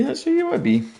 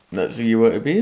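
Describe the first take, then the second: First: Mock squeaky repeat. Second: Said in the usual way. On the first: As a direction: squeak the repeat as a sarcastic jab. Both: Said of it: "And I was just like".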